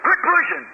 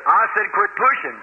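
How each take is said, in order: First: High, sharp call from the crowd; sharp yell. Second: Level threat from a big man; firm warning. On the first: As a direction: snap it out at the pusher. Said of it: "Somebody said". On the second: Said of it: "laid his hand on my shoulder and said". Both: Retold or imitated.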